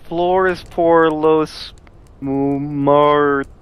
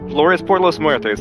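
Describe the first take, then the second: First: It is said with a clumsy, anglicized accent. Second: It is said with a fluent, native-like accent. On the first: Someone who cannot speak the language is reading it. The speaker calls it wrong. "So she tries to read it" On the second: Someone who knows the language is saying it. The speaker calls it right. "that's how you say it"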